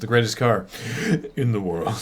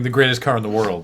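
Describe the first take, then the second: First: The phrase breaks with a pause in the middle. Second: The phrase is said smoothly without a pause. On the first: "pause in the middle of the sentence" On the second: "Instead of saying"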